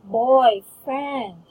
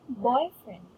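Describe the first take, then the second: First: The stress is on the second syllable. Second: The stress is on the first syllable. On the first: The speaker calls it wrong. "You cannot say boyfriend" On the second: The speaker calls it right. "But you can say boyfriend. ... So it's on the boy"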